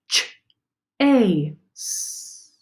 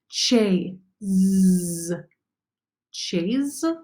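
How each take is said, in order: First: The last consonant is a hissing s sound. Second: The last consonant is a buzzing z sound. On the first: The speaker calls it right. "Let me try it with the S sound now" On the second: The speaker calls it wrong. "I'm going to try the Z sound first"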